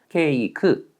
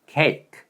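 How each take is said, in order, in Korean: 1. 한국어 음절로 읽어요. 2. 영어 발음으로 말해요. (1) "한글로 읽으면 이렇게 됩니다" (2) "영어로는 cake"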